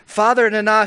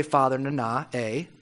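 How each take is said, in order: First: "Father Nana" proclaimed loud and high; a booming "Father Nana"; grand invocation. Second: "Father Nana" muttered low and soft; droning "Father Nana" as if for the hundredth time; tired, deflated litany; weary mock repetition. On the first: Acted. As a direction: call out "Father Nana" like a herald. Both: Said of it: "How many times do you have to say".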